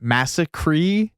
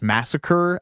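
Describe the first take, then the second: First: The final syllable is drawn out to rhyme with 'me'. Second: The word ends in an ordinary unstressed final syllable.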